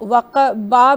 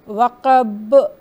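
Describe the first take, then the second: First: The word ends with an added a vowel. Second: The word ends in b with a short echo. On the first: The speaker calls it wrong. "इसको वक़बा भी नहीं कहेंगे" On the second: The speaker calls it right. "बल्कि वक़ब"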